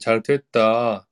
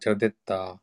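First: The second syllable starts with a voiceless t. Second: The second syllable starts with a voiced d. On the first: The speaker calls it wrong. "てじゃなくて" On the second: The speaker calls it right. "でですかね"

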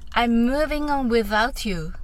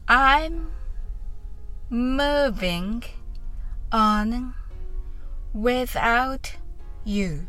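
First: The phrase is spoken quickly. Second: The phrase is spoken slowly. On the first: "それでは早く言ってみましょう" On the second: "まずはゆっくりやってみましょう"

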